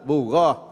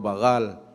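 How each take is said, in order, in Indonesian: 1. Kata ini berakhir dengan bunyi t. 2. Kata ini berakhir dengan bunyi l. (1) "Bukan bagal, bughat" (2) "Orang dengar bagal"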